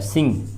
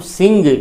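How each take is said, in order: First: It ends in ng with no hard g. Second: It ends with a separate hard g sound. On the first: The speaker calls it right. "ग नहीं" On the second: The speaker calls it wrong. "इसका उच्चारण हम सिंग नहीं कर सकते हैं"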